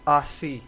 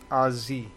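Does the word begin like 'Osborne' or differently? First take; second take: differently; like Osborne. First: The first syllable does not sound like 'Oz'. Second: The first syllable sounds like 'Oz' in Osborne. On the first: The speaker calls it wrong. "They don't like Aussie" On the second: The speaker calls it right. "It's Aussie. ... Like Osborne"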